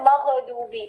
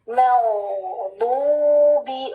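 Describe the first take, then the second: First: The gh sound is cut off sharply. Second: The gh sound is heavy and continues. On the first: The speaker calls it wrong. "हम गलत पढ़ते थे ना, तो कैसे पढ़ते थे" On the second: The speaker calls it right. "इसमें आवाज सख्ती से काटनी नहीं है"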